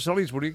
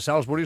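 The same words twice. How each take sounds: First: The name is read as spelled, Catalan style. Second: The name is said with an English pronunciation. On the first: This is how it is written. "aquí posa Salisbury" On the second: This is how it is actually pronounced. "que es pronuncia Salisbury"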